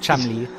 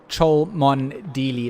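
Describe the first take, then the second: First: The name is said with only two syllables. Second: The name is said with all four syllables. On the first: The speaker calls it right. "syllables in the middle. You just forget it all" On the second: The speaker calls it wrong. "it's spelt out phonetically"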